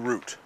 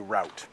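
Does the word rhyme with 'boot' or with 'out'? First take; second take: boot; out. First: The vowel sounds like the one in 'boot'. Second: The vowel sounds like the one in 'out'. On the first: This is the speaker's own usual pronunciation. "I say root" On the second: Some other Americans pronounce it this way. "sometimes you will hear Americans say route"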